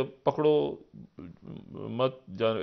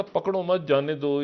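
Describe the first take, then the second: First: "पकड़ो" alone, a clear pause, then "मत जाने" rising; pause placement. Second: "पकड़ो मत जाने दो" run together slowly, no break after "पकड़ो"; pause placement. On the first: Quoting the game line the other way, pause after "पकड़ो". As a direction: break hard after "पकड़ो" before "मत जाने". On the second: Quoting the children's game line, slow and unbroken. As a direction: say "पकड़ो मत जाने दो" as one slow phrase, the pause only at the end. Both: Shown as a demonstration. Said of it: "ऐसे बच्चे करते थे आपस में".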